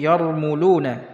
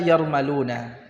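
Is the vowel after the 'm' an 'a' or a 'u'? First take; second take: u; a. First: The vowel after the m is 'u'. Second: The vowel after the m is 'a'. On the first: "Kita harakati dengan dhammah" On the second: "bisa dibaca yarmaluna ya"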